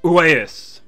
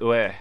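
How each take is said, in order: First: A final s sound is pronounced. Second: There is no final s sound. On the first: The speaker calls it wrong. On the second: The speaker calls it right.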